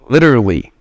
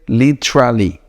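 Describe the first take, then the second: First: It is pronounced the way a native speaker would. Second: It is pronounced the way a non-native speaker would. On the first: The speaker calls it right. "The right pronunciation uh, goes like literally" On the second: The speaker calls it wrong. "if English is your second language, you would say literally"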